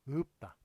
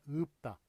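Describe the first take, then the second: Both takes have the same delivery.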